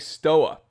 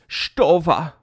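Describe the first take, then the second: First: The name is read with an American English pronunciation. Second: The name is said with a German-style v sound. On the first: "I'm reading that German name in American English" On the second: "Why don't you pronounce it Stova"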